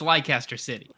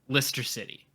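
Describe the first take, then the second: First: Leicester is said the way it is spelled. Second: Leicester is said the short, local English way. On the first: The speaker refuses the local form and goes by the spelling. "It's Leicester City" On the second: This is how the English want it said. "I'm not calling it Lister City"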